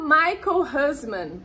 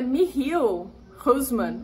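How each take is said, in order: First: The first name is said the English way. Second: The first name is said the Dutch way. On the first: The speaker calls it wrong. "mas não é assim que se fala" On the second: The speaker calls it right. "alguma coisa assim, porque ele é holandês"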